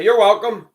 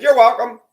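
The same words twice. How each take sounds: First: High, loud, sarcastic "You're welcome."; pointed you're welcome. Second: Higher, louder, cutting "You're welcome."; pointed you're welcome. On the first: To women who never thanked him, a loud sarcastic you're welcome. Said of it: "I'd say". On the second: Calling out an ungrateful woman at the door, a sharp you're welcome. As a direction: fire "You're welcome." right at her. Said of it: "I didn't yell, I didn't scream". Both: Retold or imitated.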